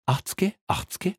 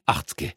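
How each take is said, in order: First: High, rising sing-song offer; sing-song haggling. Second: Whispered, lower haggling. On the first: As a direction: coax with a lilting tease. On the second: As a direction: lean in and whisper it. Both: Acted. Haggling over a bribe.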